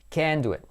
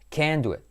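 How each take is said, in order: First: The word 'can' is strongly stressed. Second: The same.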